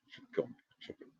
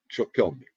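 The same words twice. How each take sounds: First: Repeats fading away into silence; fading echo. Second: Said in the usual way. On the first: Shown as a demonstration. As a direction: let each repeat die off like an echo.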